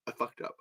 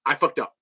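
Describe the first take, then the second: First: Much softer repeat; muttered to self. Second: Said in the usual way. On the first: Real, not acted. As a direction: drop it under your breath.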